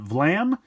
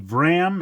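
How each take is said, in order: First: The second sound is an L. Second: The second sound is an R. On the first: The speaker calls it wrong. "and not Vlam" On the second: The speaker calls it right. "it is supposed to be Vram"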